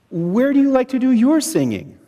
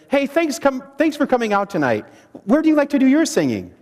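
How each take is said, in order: First: Your leaned on, after a pause following So; stress on your. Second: Fast, abrupt jump straight into the question; rushed opener. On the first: Leader modelling the opening question for the group, stressing your. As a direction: hit the word your and let it fall. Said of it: "The emphasis is on your". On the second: A leader rushing the question at newcomers, hurried. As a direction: blurt the question out too fast. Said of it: "if I just jump right into things and say". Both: Shown as a demonstration.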